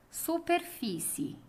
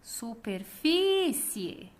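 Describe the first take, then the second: First: Said in the usual way. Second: "Superfície" called very slowly, FÍ drawn out; calling out the word. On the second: Shown as a demonstration. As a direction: call "Superfície", holding the stressed FÍ long. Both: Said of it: "Vamos chamar".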